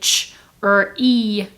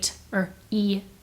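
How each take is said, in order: First: The first sound is a ch sound. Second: The first sound is a t sound. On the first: The speaker calls it wrong. "the T R blend often sounds like C H R to kids" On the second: The speaker calls it right. "but it's actually t or E"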